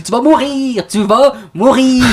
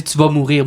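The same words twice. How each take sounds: First: Higher, slow mock warning; family catchphrase. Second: Said in the usual way. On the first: Son mimics his mother's warning as a family joke. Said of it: "Moi, je dis". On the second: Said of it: "on dit".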